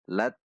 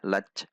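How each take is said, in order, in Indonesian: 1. Konsonan akhir terdengar seperti t. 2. Konsonan akhir terdengar seperti ch. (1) "Namun tetap di huruf T" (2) "Tidak dibaca lach, lach. Itu huruf C"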